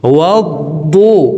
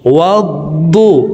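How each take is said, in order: Both takes have the same delivery.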